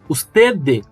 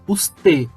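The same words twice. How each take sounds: First: The final D is strong and fully pronounced. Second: The final D is soft and barely pronounced. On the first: The speaker calls it wrong. "Eu não posso falar usted" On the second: The speaker calls it right. "Eu pronunciei ele de uma forma bem suave, como se eu fosse falar e parasse no meio do caminho"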